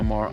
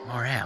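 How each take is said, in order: First: It is pronounced like the word moral. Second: It is pronounced like the word morale. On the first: The speaker calls it wrong. "I don't know why I keep calling it moral" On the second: The speaker calls it right. "It's my morale"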